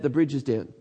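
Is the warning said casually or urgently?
casually. It is said in a calm, casual tone. The danger is mentioned without pressing the listener to act. The speaker calls it wrong. "Oh, I wouldn't do that"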